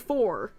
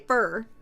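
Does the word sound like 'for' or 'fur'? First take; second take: for; fur. First: The word has an 'or' vowel, like 'for'. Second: The word has an 'er' vowel, like 'fur'. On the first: "I don't say for" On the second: "I say fur. Because I'm from the South"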